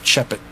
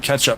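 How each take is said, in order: First: The word starts with a ch sound instead. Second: The word starts with a clear k sound. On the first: The speaker calls it wrong. "so it was Chep It" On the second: The speaker calls it right. "he couldn't say ketchup"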